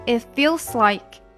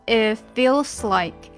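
First: The t is dropped and the words run together. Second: The same.

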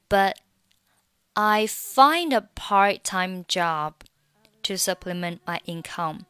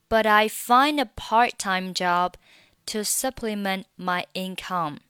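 First: The t in 'but' is not pronounced at all. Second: The t in 'but' sounds like a soft d. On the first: "那but 你还可以选择末尾的t 不发音" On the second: "这个t 会被浊化成类似于d 的发音，所以你听起来会有一点点像die 的音"

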